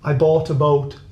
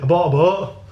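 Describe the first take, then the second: First: Said in a careful standard accent, consonants clear. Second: Said in a local accent with consonants dropped. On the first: "I'm going to say it properly, properly" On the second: "But we say"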